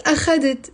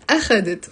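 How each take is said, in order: First: أخذت with the stress on the middle syllable خَ; wrong take, أخذت stressed a-KHA-det; stress on second syllable. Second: أخذت with the stress on the opening أ; corrected take, أخذت stressed A-kha-det; stress on first syllable. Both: Shown as a demonstration. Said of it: "So the stress is on the أ".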